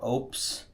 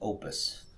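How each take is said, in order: First: It sounds like one syllable, opes. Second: It sounds like two syllables, oh-pus. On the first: The speaker calls it wrong. "or opes" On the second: The speaker calls it right. "I do believe the correct pronunciation is opus"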